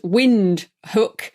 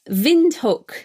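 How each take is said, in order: First: The name begins with a W sound. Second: The name begins with a V sound. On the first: The speaker calls it wrong. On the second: The speaker calls it right.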